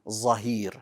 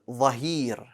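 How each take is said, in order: First: The word begins with a z sound. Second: The word begins with a th-like sound. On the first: The speaker calls it wrong. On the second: The speaker calls it right.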